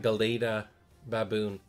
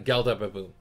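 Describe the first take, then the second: First: The first word has three syllables, with middle vowel. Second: The first word has two syllables, no middle vowel. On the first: The speaker calls it right. "there is that A in the middle" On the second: The speaker calls it wrong. "I always called it Gelda"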